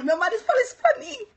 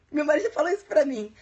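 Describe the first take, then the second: First: A quick, high, playful Northeastern Brazilian lilt on "meu marido falou isso pra mim"; Northeastern accent. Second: Said in the usual way. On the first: Shown as a demonstration. Teacher back from the Northeast showing her new Nordeste accent. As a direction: slip into a Nordeste accent to show it stuck. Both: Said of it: "voltei com o sotaque".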